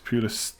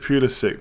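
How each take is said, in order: First: The name is said the Croatian way. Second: The name is said the American way. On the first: It follows the name's Croatian heritage. "It's Pulisic for those who want to pronounce it correctly" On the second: It ignores the name's Croatian heritage. "He pronounces it Pulisic, but because he's American"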